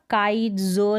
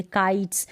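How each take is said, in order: First: काइट्स broken before a voiced z in जो; wrong z ending. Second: काइट्स ending in a hissed s; final s sound in काइट्स; correct s ending. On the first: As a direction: say काइट्स, जो as "kite-zo". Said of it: "जो नहीं पढ़ेंगे". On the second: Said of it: "यानी स sound निकल रहा है". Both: Shown as a demonstration.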